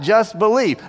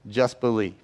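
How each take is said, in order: First: Raised, lively imitation of a command; urgent rallying call. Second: Low, soft and measured; hushed, grave reading. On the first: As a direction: call it out over a storm, lightly acted. Jesus rallying disciples in storm. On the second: Retold or imitated. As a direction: say it low and softly, as solemn scripture. Reads Jesus' words to grieving father.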